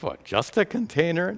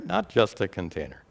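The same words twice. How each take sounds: First: Higher-pitched, mock-surprised query; incredulous listener's rising question; doubting question. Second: Said in the usual way. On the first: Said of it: "you might think".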